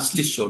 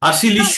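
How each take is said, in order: First: The sh and l sounds form one cluster. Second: A vowel separates the sh and l sounds. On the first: The speaker calls it right. "ওটা যুক্তাক্ষর" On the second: The speaker calls it wrong. "আলাদা আলাদা নয়, আশিলিষ্য নয়"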